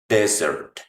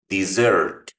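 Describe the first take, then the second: First: The stress is on the first syllable. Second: The stress is on the second syllable. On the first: It names a dry, sandy region. "el acento va en la primera" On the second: It names the sweet course after a meal. "el acento va en la segunda, también en la segunda sílaba"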